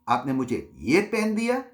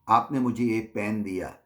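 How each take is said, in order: First: It is said dismissively, as if worthless. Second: It is said in a plain, neutral way.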